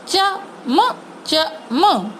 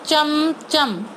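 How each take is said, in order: First: चमचम drawn out very slowly; slow sounded-out word. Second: चमचम said quickly as one word; blended word. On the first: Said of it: "उसका sound slow बोल रही हूँ". (चमचम को धीरे-धीरे बोलना) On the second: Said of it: "तीनों को मिला के". (चमचम को एक साथ बोलना) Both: Shown as a demonstration.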